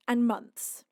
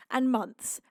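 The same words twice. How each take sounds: The two takes are said the same way.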